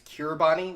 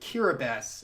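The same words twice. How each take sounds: First: The end is said with a t sound. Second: The end is said with an s sound. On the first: "that's one way to pronounce it" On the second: "the correct pronunciation"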